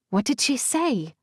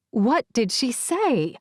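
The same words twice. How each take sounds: First: Small voice through a phone; muffled voice. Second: Faraway voice over a video call; slow, small and muffled. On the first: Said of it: "a small, muffled voice asks". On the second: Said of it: "Saren asks again". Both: A narrator's reading.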